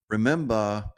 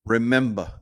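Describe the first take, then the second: No difference in how they are said.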